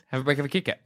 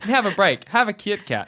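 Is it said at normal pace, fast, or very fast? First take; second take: fast; normal. First: It is said fast. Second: It is said at a normal pace.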